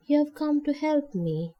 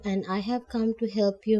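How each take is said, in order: First: Higher, wondering disbelief; unbelieving. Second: Said in the usual way. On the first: Acted. Lonely old woman repeats Nancy's offer in mild disbelief. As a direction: echo it as if it can't be true. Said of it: "she repeated unbelievingly".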